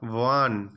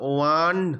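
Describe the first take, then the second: First: The word starts with a w sound. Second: The word starts without a w sound. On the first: The speaker calls it right. "হোয়েন ও is sounded as ওয়া" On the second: The speaker calls it wrong. "উচ্চারণ ওয়ান নয়"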